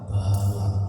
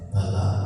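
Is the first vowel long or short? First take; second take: long; short. First: The first vowel is long. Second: The first vowel is short. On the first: It means stupidity. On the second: It means strength.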